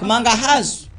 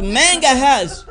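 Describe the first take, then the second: First: Manga has with open ah vowels, MAHN-ga hahz; correct pronunciation. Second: Manga has as MENG-ga hez, higher and drawn out; mocked mispronunciation. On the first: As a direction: model manga has plainly with broad A. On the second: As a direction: exaggerate manga has slowly with eh vowels. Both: Shown as a demonstration. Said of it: "not manga has".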